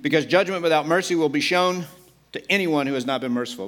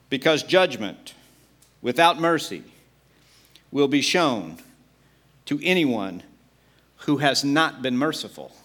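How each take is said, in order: First: It is read at a normal speed. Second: It is read more slowly.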